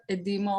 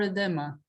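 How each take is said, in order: First: "Edima" with an ee sound in the middle; tentative name pronunciation. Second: "Edema" with an open eh in the middle; alternative name pronunciation. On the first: Host guessing a participant's name, "Edima" with an ee. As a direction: say "Edima" with stressed DEE. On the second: Host offering a participant another guess, "Edema" with open eh. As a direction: say "Edema" as eh-DEH-ma. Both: Shown as a demonstration. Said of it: "Please correct my, how I pronounce your name".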